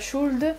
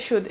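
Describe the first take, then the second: First: The L sound is pronounced in the word. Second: The L sound is silent in the word. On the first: The speaker calls it wrong. "c'est pas should" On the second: The speaker calls it right. "le L se prononce pas"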